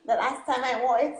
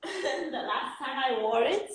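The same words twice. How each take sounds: First: Said in the usual way. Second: Slow words through a laugh. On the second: Real, not acted. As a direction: laugh as you say it. Laughing while telling.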